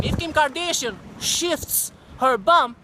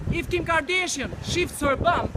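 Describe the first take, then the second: First: Slow, scornful drawl on Kim Kardashian; sneering slow repeat of the Kardashian line; mocking drawl. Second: Said in the usual way. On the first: Shown as a demonstration. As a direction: stretch it out with contempt. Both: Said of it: "repeats the phrase slower".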